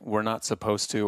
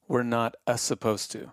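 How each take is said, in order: First: Supposed starts directly with its usual sound. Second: An extra vowel sound comes before supposed. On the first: The speaker calls it right. "like we're not supposed to or whatever" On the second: The speaker calls it wrong. "they say we're not a supposed to"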